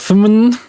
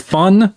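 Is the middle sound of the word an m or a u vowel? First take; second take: m; u vowel. First: The middle sound is an m hum. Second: The middle sound is a u vowel. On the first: The letter mu is read the Greek way. "the mu is like an m sound" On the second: The letter mu is read the English way. "that works great if you don't speak Greek"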